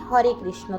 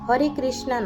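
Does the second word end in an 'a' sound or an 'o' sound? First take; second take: o sound; a sound. First: The name ends with a short 'o' vowel. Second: The name ends with a long 'a' vowel. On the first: The speaker calls it right. "সঠিক উচ্চারণ হবে হরে কৃষ্ণ" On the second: The speaker calls it wrong. "হরে কৃষ্ণা নয়"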